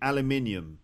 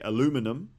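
First: It is said the British way, with the extra syllable. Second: It is said the American way, without the extra syllable. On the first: "in Britain, we'd say aluminium" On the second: "in Canada or in America, they'd say aluminum"

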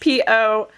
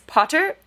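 First: The middle t is dropped for a glottal stop. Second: The middle t is pronounced clearly.

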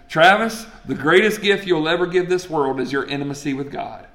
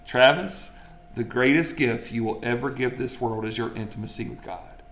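First: It is said at a normal speed. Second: It is said slowly and deliberately.

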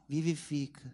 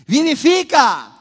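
First: It is said flatly, without enthusiasm. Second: It is said loudly, with excitement.

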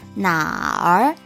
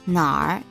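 First: The R is pronounced fully as a separate sound. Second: The R blends in, sounding like one syllable. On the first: "the full R as in 哪儿" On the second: "R sound kind of like blends in and becomes 哪儿, sounds like one sound"

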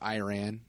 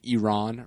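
First: Iran is said with an American pronunciation. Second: Iran is said with a non-American pronunciation.

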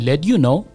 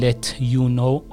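First: The t and y merge into a d or ch sound. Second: The t and y are said separately. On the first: The speaker calls it right. "صدای د میده یا اینکه صدای چه میده" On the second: The speaker calls it wrong. "let you know نمیگیم"

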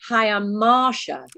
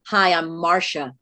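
First: The name is said in a British accent. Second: The name is said in an American accent.

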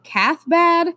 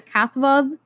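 First: The second part begins with a 'b' sound. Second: The second part begins with a 'v' sound. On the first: This is the common modern pronunciation. "I'm going to pronounce it Cathbad" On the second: This is the original Celtic pronunciation. "in the original, like, Celtic, it's pronounced Cathvav"

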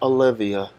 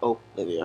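First: The first vowel sounds like 'uh'. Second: The first vowel sounds like a clear 'o'. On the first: The speaker calls it wrong. "Not how I kind of pronounced it just then" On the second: The speaker calls it right. "with an O"

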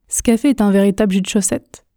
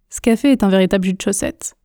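Both takes have the same delivery.

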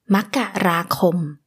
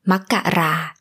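First: All syllables of the word are said in full. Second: The final syllable is dropped from the word. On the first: This form is for official documents. "Makkarakom, the January, can become Makkara" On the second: This form is for casual conversation. "can become Makkara in a casual conversation"

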